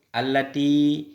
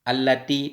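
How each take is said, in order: First: The word ends in a long i vowel. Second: The word ends in a short i vowel.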